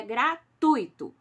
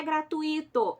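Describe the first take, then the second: First: "gratuito" said gra-TUI-to, ui one glide, stress on u; slow, loud "gratuito" in three syllables; correct pronunciation. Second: "gratuito" said gra-tu-Í-to with stress on the i; loud "gratuito" with the i stressed as its own syllable; wrong stress example. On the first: Teacher correcting students, slow correct "gratuito", ui as one. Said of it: "Não é gratuito". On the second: Teacher warning students, loud wrong "gratuito" stressed on the i. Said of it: "é gratuito". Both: Shown as a demonstration.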